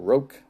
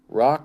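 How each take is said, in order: First: The name has a long vowel, like spoke. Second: The name has a short vowel, like rock. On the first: "let's go with Roke" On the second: "Rock or Roke"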